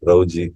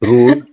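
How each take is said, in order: First: The vowel sounds like ow, with ee added. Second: The vowel is a pure oo sound. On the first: The speaker calls it wrong. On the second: The speaker calls it right.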